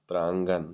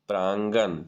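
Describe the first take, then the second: The two takes are said the same way.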